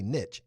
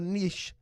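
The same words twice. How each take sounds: First: It is said the Southern US way. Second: It is said in a standard, non-Southern way.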